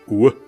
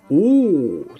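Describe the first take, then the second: First: It sounds condescending and disbelieving. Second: It sounds amazed and admiring. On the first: Don't tell me such nonsense. "ein herablassendes, ein ungläubiges O" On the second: Something is surprising and impressive. "das normale O, ... Ein Ausruf des Erstaunens"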